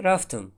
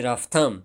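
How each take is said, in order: First: Рафтам with the vowel colored as in street speech; street pronunciation. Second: Said in the usual way. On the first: Shown as a demonstration. Teacher shows how the street says рафтам. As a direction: say рафтам the colloquial way. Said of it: "мегӯем рафтам". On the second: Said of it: "ба ҷои рафтам".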